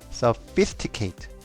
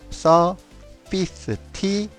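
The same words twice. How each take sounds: First: The word is said at normal speed. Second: The word is said slowly and drawn out.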